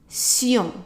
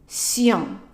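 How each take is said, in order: The two takes are said the same way.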